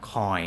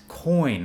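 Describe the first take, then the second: First: Coin cut to 'coy'; imitated mispronounced coin ending on a glide; wrong, N dropped. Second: Coin with a long clear N; emphatic coin, higher than the wrong take; correct final N. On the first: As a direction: leave the N off coin. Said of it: "not coin". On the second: Shown as a demonstration. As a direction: hold the N at the end of coin. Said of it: "It's coin".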